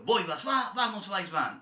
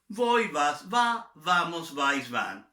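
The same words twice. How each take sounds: First: The list is said very quickly. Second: The list is said at a slower pace.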